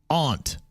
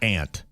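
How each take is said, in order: First: The vowel differs from the insect word. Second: The vowel matches the insect word. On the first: The speaker calls it right. "ant is pronounced aunt" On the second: The speaker calls it wrong. "not ant. Ant is an insect"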